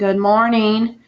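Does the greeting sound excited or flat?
flat. It is said flat, without excitement. "instead of saying good morning"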